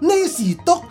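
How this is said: It is said with a Chinese-style pronunciation. This is how the old passenger said it. "他说的next stop 啊"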